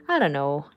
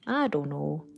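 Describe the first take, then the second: First: Said in the usual way. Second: A light Canadian accent on "I don't know"; a hint of Canadian accent, softer. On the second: Shown as a demonstration. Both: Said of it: "Did that make me sound really Canadian".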